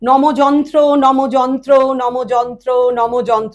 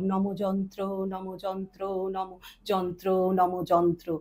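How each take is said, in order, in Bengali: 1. এটি স্বাভাবিক মাঝারি পিচে বলা হয়েছে। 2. এটি নিচু, গভীর পিচে বলা হয়েছে। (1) "প্রথমে স্কেল নর্মাল ভয়েসে বললাম" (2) "আবার লোতে বললাম"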